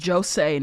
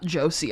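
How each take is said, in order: First: It is not said like the name Josie. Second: It is said like the name Josie. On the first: The speaker calls it right. "it's Josei" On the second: The speaker calls it wrong. "pronouncing it like a name"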